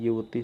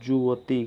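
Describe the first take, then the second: First: The word begins with a 'y' sound. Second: The word begins with a 'j' sound. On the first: The speaker calls it right. "युवती सही होता है" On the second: The speaker calls it wrong. "जुवती गलत है"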